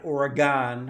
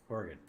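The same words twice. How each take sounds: First: It is said the way non-locals often say it. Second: It is said the way local residents say it. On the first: The speaker calls it wrong. "not Oregon" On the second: The speaker calls it right. "as I've been told by Oregonians"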